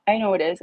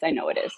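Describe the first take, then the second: First: Said again higher and louder; insisting to herself the owners won't change; insistent repeat. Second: Said in the usual way. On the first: Real, not acted. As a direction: lean on it harder the second time.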